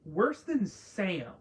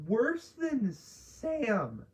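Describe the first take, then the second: First: Said in the usual way. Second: Worse than Sam drawn out slowly, voice cracking high. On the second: Real, not acted. Ranting about a TV character, voice cracks mid-rant. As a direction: let the voice break as you stretch it out. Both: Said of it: "Voice crack".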